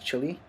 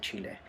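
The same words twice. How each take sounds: First: The name is said with an English pronunciation. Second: The name is said with a Spanish pronunciation. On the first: "the English pronunciation is Chile" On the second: "I always get the urge to say Chile"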